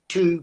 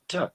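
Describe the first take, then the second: First: The word has a full vowel sound. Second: The word has a weak, reduced vowel sound.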